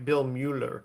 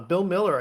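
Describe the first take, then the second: First: The surname begins with a 'mew' sound. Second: The surname begins with a 'mill' sound. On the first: This is how the spelling suggests reading it. The speaker calls it wrong. "you read it like Bill Mueller" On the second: This is how the man himself says it. The speaker calls it right. "he pronounces it Miller"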